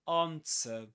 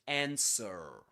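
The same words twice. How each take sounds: First: It is said in a British accent. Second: It is said in an American accent.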